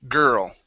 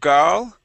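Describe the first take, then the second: First: The vowel is an 'er' sound. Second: The vowel is an open 'ah' sound. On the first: The speaker calls it right. "it is gur, girl" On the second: The speaker calls it wrong. "Instead of gal"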